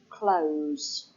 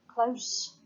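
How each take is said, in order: First: The word ends with a buzzing Z sound. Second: The word ends with a hissing S sound. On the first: It is the verb meaning to shut. "the sound is a Z sound, Z, Z, as with the word close" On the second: It is the adverb meaning near. "then it's an S sound"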